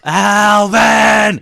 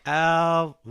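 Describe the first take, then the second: First: It is shouted with strong emotion. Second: It is said flatly, with little emotion.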